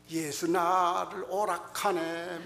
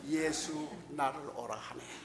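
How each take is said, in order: First: It is said with a Gyeongsang dialect accent. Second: It is said in standard Seoul Korean. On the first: The speaker calls it wrong. "경상도에서 왔다고 찬송가 할 때" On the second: The speaker calls it right. "그저 표준말 그대로"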